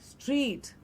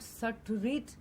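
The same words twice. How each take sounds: First: It is said as a single syllable. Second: An extra vowel splits it into two syllables. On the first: The speaker calls it right. "it is street" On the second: The speaker calls it wrong. "it is not street"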